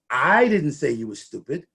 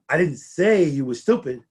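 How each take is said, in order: First: The word "I" carries the main stress. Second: The word "say" carries the main stress. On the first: Someone else said it. "The hostess said it" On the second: It was written rather than said. "but I did write it on the bulletin board"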